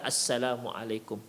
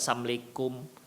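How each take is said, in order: First: Every syllable of the greeting is pronounced fully. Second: The greeting is shortened, with syllables run together. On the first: The speaker calls it right. "kita ucapkan assalamualaikum" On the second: The speaker calls it wrong. "bukan assalamualaikum, likum"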